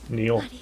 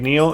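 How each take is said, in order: First: It is said as two Japanese syllables, ni-o. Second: It is said like the English name Neo. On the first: The speaker calls it right. "It's Neo, or something more similar to that" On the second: The speaker calls it wrong. "it's not actually Neo"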